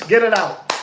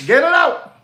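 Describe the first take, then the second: First: Said in the usual way. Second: Punched-up higher repeat; emphatic command. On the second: Acted. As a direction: bark the order a second time. Repeats command, second take louder.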